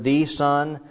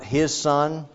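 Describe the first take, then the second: First: "the son" with "the" leaned on and lifted; stress on THE. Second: "his son" with "his" pushed up and held; stress on HIS. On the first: Preacher contrasting the word choice, stress on "the". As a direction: hit "the" hard in "the son". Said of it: "he doesn't use the word". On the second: Preacher contrasting the word choice, stress on "his". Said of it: "it's not". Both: Shown as a demonstration.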